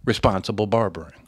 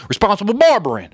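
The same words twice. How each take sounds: First: Said in the usual way. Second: High, loud Southern auctioneer tagline, falling at the end; Southern auctioneer twang. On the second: Acted. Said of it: "as an auctioneer voice".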